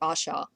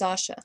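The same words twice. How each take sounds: First: The first vowel is an open 'ah' sound. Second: The first vowel is a short 'uh' sound. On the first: The speaker calls it wrong. "it's still making the ah sound, and we don't want to call her Asha" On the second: The speaker calls it right. "Her name is Asha"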